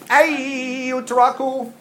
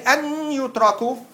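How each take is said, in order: First: The n sound merges into a doubled y. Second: The n sound is pronounced before the y. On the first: The speaker calls it right. "you say ay yutraku" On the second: The speaker calls it wrong. "you don't say an yutraku"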